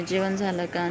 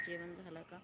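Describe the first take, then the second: First: Said in the usual way. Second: Whispered. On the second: Shown as a demonstration.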